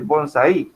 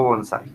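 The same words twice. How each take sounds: First: Bonsai said as BON-sai, first syllable stressed; wrong stress on BON. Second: Bonsai said as bon-SAI, last syllable stressed. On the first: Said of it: "Yo digo bonsai". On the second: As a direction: land the stress on the end of bonsai. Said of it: "donde yo hago la fuerza es en la parte de sa". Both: Shown as a demonstration.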